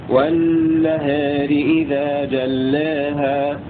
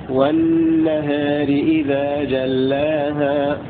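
Both takes have the same delivery.

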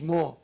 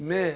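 First: The long a vowel is heavy and full. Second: The long a vowel is thin and light. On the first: The speaker calls it wrong. "مش ما" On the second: The speaker calls it right. "رققت الالف تبعا للايه؟ لترقيق الميم"

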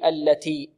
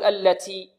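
First: The t is lightly breathy without any hissing. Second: The t is over-breathy with a hissing s-like sound. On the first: The speaker calls it right. "لابد أن يأتي بالهمس ولكن لا يبالغ في الهمس، فيقول التي التي هكذا" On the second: The speaker calls it wrong. "بعض الطلاب يبالغون في الهمس، يقول التي تي تي"

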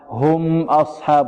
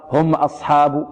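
First: The m is held a moderate length. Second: The m is cut short and abrupt. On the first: The speaker calls it right. "الميم تعطيها قدرها من التوسط" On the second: The speaker calls it wrong. "فالبعض يقول هكذا"

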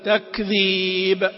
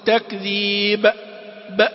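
First: The final letter bounces briefly with no vowel. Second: The final letter gets an extra glottal-like sound. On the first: The speaker calls it right. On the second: The speaker calls it wrong.

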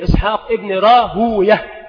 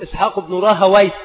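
First: The name ends with the sound -uyah. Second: The name ends with the sound -awayh. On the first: This is how hadith scholars say it. "والمحدثون يقولون وي شيطان، فيقولون" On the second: This is how other scholars say it. "والآخرون يقولون ... كنفطوي"

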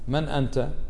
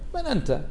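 First: It sounds like a plain, sincere question. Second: It sounds scornful and mocking. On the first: The asker genuinely wants an answer about identity. "الأول سؤال من أنت، ها صح من يعني أسألك حتى تجيبني" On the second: The asker belittles the other person. "الثاني ها استفهام على سبيل السخرية والاحتقار"

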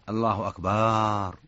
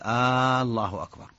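First: The vowel after b is lengthened. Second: The opening vowel is lengthened like a question. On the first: It changes the meaning to drums. "أو مد الباء" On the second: It turns the phrase into a question. "هذه استفهام، كأنه يسأل هل الله أكبر"

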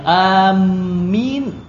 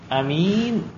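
First: The m sound is held and doubled. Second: The m sound is short and single. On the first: "mimnya tasydid" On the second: "a-nya pendek"

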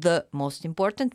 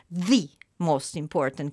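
First: The word 'the' has a short reduced vowel. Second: The word 'the' has a long 'ee' vowel. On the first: "quindi non the most important" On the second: "la si pronuncia con quella E finale, leggendo quella E finale che in generale non si legge"

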